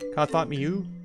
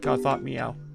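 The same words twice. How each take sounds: First: The double O is said as 'oo'. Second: The double O is not said as 'oo'. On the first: "I've always thought O O is pronounced oo" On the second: "almost everybody calls it uh"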